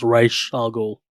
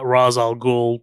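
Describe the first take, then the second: First: "Raish al Ghul" with Raish as RAYSH; long A and SH in "Raish al Ghul"; supposedly correct pronunciation. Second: "Ra's al Ghul" with Ra's as RAHZ; movie's pronunciation. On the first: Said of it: "it's supposed to be pronounced". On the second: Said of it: "in the movie they pronounce it". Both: Shown as a demonstration.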